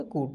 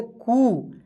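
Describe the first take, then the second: First: कू said simply with a short u; कू as an unstretched short u; simple short vowel. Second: कू with the ū stretched out long; कू, held long as a long ū; long drawn-out vowel. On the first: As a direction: keep the vowel in कू brief and plain. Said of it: "छोटी ऊ को simple तरीके से पढ़ेंगे". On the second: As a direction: draw out the vowel in कू. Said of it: "उच्चारण खींच कर होगा". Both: Shown as a demonstration.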